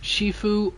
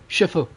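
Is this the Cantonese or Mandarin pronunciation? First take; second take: Cantonese; Mandarin. First: It is pronounced the Cantonese way. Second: It is pronounced the Mandarin way.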